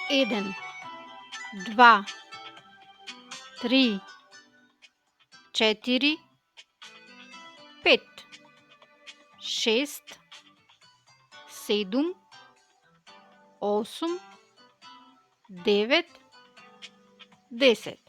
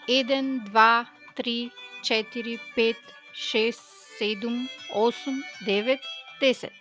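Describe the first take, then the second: First: The numbers are counted at a slow pace. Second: The numbers are counted at a faster pace. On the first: "Let's say them slowly together" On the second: "a bit faster"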